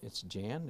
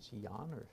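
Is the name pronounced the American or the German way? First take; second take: American; German. First: The name is said with an American pronunciation. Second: The name is said with a German pronunciation. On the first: "If you're an American, it's Jan" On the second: "If you're German, it's Jan"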